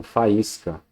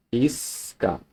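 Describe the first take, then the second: First: Said in the usual way. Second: "Faísca" softly split as fa-ís-ca; "Faísca" in three soft, separate parts, fa, ís, ca; syllable by syllable. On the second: Shown as a demonstration. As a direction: pause after each syllable of "Faísca". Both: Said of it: "estão em sílabas diferentes".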